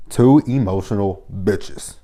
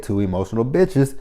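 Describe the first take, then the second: First: Drawn-out, every word spaced; slow emphatic repeat. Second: Said in the usual way. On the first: Real, not acted. Vlogger repeating a verdict on two quarrelling men, slow and emphatic. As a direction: say it slowly, letting each word land.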